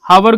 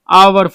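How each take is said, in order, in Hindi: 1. यह शब्द 'h' ध्वनि से शुरू होता है। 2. यह शब्द स्वर की ध्वनि से शुरू होता है। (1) "हावर गलती हो जाएगा" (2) "इसको पढ़ा जाता है आवर"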